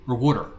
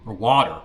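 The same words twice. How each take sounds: First: "water" said as "wooder"; alternate pronunciation. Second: "water" said as "wawter"; alternate pronunciation. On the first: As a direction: say "water" with a short oo as in wood. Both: Shown as a demonstration. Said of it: "However you say it".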